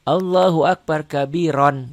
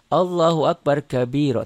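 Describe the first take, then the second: First: The last word ends with an n sound. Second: The last word ends on a long vowel. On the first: The reading continues without stopping. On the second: The reader stops at this word.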